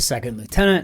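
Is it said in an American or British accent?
American. It is said in an American accent.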